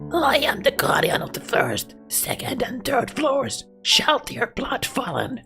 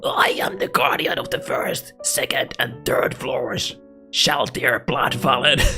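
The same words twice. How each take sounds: First: It is said in a cutesy, childlike voice. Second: It is said in a plain, normal voice.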